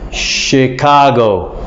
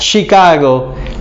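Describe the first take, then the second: First: The word is pronounced in the natural way. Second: The word is pronounced in a strange-sounding way. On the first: The speaker calls it right. "So you should say Chicago" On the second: The speaker calls it wrong. "it sounds kind of strange"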